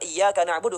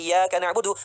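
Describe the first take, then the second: First: The y sound in the first word is doubled. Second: The y sound in the first word is single. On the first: You alone we worship. The speaker calls it right. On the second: To the sun we worship. The speaker calls it wrong.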